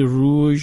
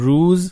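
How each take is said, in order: First: The word ends with a 'zh' sound. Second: The word ends with a 'z' sound. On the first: This is the form used in northwestern languages. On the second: This is the southwestern form used in today's Persian. "ما میگیم روز"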